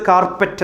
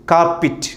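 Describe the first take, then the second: First: കാർപ്പറ്റ് with a full "pet"; common mispronunciation. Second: കാർപ്പിറ്റ് ending in a short "pit"; correct pronunciation. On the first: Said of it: "തെറ്റ്". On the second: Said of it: "കൃത്യമായ ഉച്ചാരണം". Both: Shown as a demonstration.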